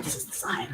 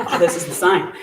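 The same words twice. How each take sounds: First: Hushed whisper of realization; whispering as if a secret is revealed; awed whisper. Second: Repeated through a laugh; excited laughing take on the same words; laughing realization. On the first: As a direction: breathe it out in awe. Friend stunned by the sign. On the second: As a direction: laugh as the truth sinks in. Friend realizing the sign. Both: Retold or imitated.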